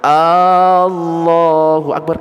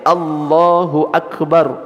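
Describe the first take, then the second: First: The first vowel is drawn out long. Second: The first vowel is kept short. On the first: It asks whether God is great. The speaker calls it wrong. "A-nya panjang" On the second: It states that God is great. The speaker calls it right. "Kalau pendek"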